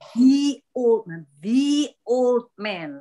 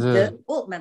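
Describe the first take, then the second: First: The word 'the' is said with a long 'thee'. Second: The word 'the' is said with a short 'thuh'. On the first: The speaker calls it right. "tapi ... Ini the-nya dibaca the" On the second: The speaker calls it wrong.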